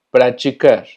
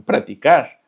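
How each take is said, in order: First: Praticar with ti as "chi"; TI pronunciado chi. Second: Practicar with a hard "ti", as "praticar"; TI sin palatalizar. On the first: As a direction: say praticar as "prachicar". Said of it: "siempre se va a pronunciar chi". (praticar con «chi» en vez de «ti») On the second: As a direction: keep a clean t in practicar, no "chi". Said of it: "podrá haber lugares donde digan". (practicar con «ti» dura, sin «chi») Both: Shown as a demonstration.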